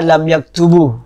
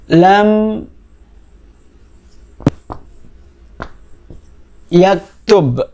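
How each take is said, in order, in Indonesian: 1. Kata terakhir berakhir dengan vokal u pendek. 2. Kata terakhir berakhir pada konsonan, tanpa vokal. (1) "Tidak boleh dibaca" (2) "harus disukun atau dijazm"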